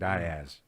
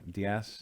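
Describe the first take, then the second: First: It uses the local Arkansas pronunciation of the name. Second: It uses the usual pronunciation of the name. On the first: "in Arkansas it's pronou- pronounced Diaz" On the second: "which is Diaz, right?"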